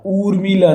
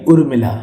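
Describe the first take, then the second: First: उर्मिला high, with long "oo" and "ee"; wrong long vowels. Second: उर्मिला short on "ur" and "mi"; correct short vowels. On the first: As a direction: drag उर्मिला out as "oor-mee-laa". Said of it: "उर्मिला नहीं". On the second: Teacher gives the correct उर्मिला, short first vowels. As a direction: say उर्मिला quickly as "ur-mi-la". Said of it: "छोटा ऊ होगा". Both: Shown as a demonstration.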